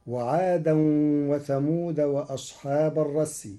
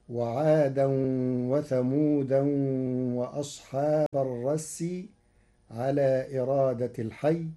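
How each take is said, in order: First: Said in the usual way. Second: وثمودا ending in an open -an, thamudan; وثمودا بالتنوين منصوبة; thamudan with tanwin. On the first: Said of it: "قرأ ورش كلمة وثمود". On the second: Shown as a demonstration. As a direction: put the -an nunation on وثمودا. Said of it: "بتنوينها منصوبة".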